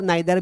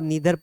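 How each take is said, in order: First: The first vowel sounds like 'eye'. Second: The first vowel sounds like 'ee'. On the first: "कुछ लोग आइदर और नाइदर भी पढ़ते हैं, वो भी सही है" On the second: "ईदर और नीदर पढ़ते हैं, वो भी सही है"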